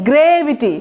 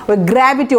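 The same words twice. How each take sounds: First: গ্রেভিটি said with "gre" as in grave; গ্রেভিটি with the first vowel as in "grey"; teacher stressing that গ্রেভিটি comes from grave; pronouncing gravity from grave. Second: গ্র্যাভিটি said with an open "gra" like the English word gravity; গ্র্যাভিটি with the first vowel as in "cat"; teacher contrasting গ্র্যাভিটি, the word for the force, with গ্রেভিটি; pronouncing gravity. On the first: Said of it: "আর এটা কি?". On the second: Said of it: "ওটার উচ্চারণ কিন্তু গ্র্যাভিটি". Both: Shown as a demonstration.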